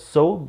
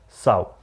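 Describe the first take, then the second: First: The word is said like 'so'. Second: The word is said differently from 'so'. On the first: The speaker calls it wrong. "This is not pronounced as so" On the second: The speaker calls it right. "This is pronounced as sow"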